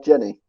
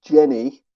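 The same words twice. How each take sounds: First: Said in the usual way. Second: Loud, higher attempt at a Southern drawl; Forrest Gump's accent. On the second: Contestant tries the character's accent to jog memory, Southern drawl. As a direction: put on a Southern film accent. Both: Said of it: "If you try do it in his accent".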